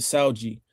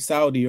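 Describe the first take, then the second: First: The d sounds like a j sound. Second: The d is a plain hard d sound. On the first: It is said the way people in Brazil say it. "But they pronounce it ... they pronounce their D's as their J's" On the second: It is said the way standard Portuguese says it. "in the regular Portuguese, it will be"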